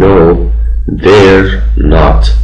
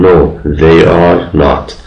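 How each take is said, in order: First: They and are are joined into one syllable. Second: They and are are said as two words. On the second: "این صورت کامل رو میگم"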